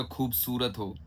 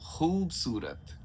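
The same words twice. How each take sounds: First: खूबसूरत with a plain aspirated ख; wrong plain kh. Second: खूबसूरत slow, throaty ख; slow nukta kh. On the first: Teacher showing how people wrongly say खूबसूरत. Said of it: "हम बोलेंगे". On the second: Teacher giving the correct खूबसूरत after the wrong one. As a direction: rasp the ख of खूबसूरत slowly. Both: Shown as a demonstration.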